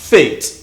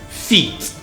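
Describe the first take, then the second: First: The vowel is short, like in 'it'. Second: The vowel is long, like 'ee'. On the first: This is the standard pronunciation. The speaker calls it right. "the standard pronunciation" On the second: This is how the word is said in this area. The speaker calls it wrong. "They are wrong"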